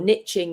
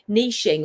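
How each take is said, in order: First: It is said the American way. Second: It is said the non-American way.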